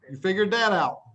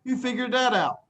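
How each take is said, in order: First: "that" stressed, falling tune; "You figured that out" with weight on "that". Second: "that" stressed and pitched up; "You figured that out", "that" lifted; stress on that, higher. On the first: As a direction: lean on "that". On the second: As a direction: say "that" higher with a firm fall. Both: Shown as a demonstration.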